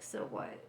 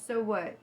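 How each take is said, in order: First: Soft whispered So what. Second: Said in the usual way. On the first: Retold or imitated. Quotes the call-out.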